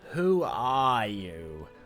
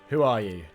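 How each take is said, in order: First: It is said in a mocking, obnoxious voice. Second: It is said in a plain voice.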